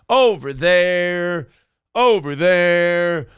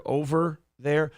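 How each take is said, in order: First: Slow, drawn-out spooky warning; lightly hammed-up dread; mock ominous. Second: Said in the usual way. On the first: Host mocking Philly, slow ominous warning voice.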